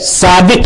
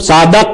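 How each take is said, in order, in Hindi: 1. आख़िरी अक्षर में 'i' स्वर है। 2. आख़िरी अक्षर में 'a' स्वर है। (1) "सादिक है" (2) "नहीं है"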